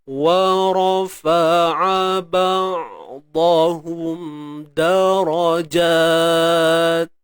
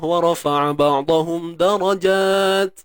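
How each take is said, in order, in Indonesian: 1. Frasa itu dibaca dengan lambat. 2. Frasa itu dibaca dengan cepat. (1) "Kalau pelan-pelan lah" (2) "Macam mana boleh baca laju?"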